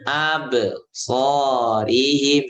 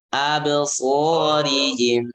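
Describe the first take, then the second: First: The echo on 'ab' is cut off before the rest. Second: The echo on 'ab' flows smoothly into the rest. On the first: The speaker calls it wrong. "sering dibaca terputus. Salah" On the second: The speaker calls it right. "jangan terputus pantulannya"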